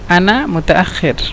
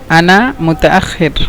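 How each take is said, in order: The two takes are said the same way.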